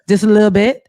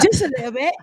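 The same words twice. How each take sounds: First: It is said in a plain, non-British accent. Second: It is said in a put-on British accent.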